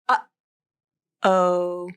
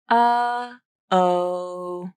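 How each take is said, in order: First: The voice cuts off with a sharp, abrupt stop. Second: The voice just fades out without a crisp stop. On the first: The speaker calls it right. "it has an abrupt, crisp, sharp quality" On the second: The speaker calls it wrong. "you're not just stopping your voice like this. That doesn't have the right quality"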